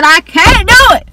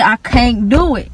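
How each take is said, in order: First: Begging the teacher, higher and louder; pleading cry, higher and louder. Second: Said in the usual way. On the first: Retold or imitated. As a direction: raise the pitch and push it out. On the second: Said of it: "Like, I just said".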